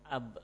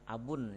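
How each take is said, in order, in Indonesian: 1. Kata ini berakhir dengan konsonan akhir yang mati. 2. Kata ini berakhir dengan bunyi -un yang ditambahkan. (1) "yang keduanya saya sukunkan dengan ab" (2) "Yang pertama dengan menggunakan e, tanwin"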